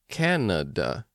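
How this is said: The three vowels each sound different. "in North American English, at least, the A's are pronounced differently"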